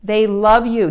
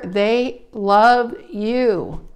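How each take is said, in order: First: "love" said louder and firm; firm repeat. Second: "love" drawn out very slowly; slow emphasis. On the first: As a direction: punch "love" at normal speed. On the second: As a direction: dwell on "love" slowly and firmly. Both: Shown as a demonstration. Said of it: "Do you understand what I'm saying?".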